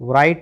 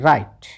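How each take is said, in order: First: The word begins with a W sound. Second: The word begins with no W sound. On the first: The speaker calls it wrong. "नहीं" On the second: The speaker calls it right. "क्या बोलना है"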